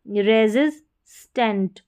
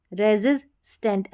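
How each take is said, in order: First: resistant drawn out syllable by syllable; slow model word. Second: Said in the usual way. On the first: Shown as a demonstration. Teacher models the word for students, slowly.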